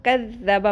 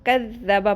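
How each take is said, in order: First: The middle consonant is held doubled. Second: The same.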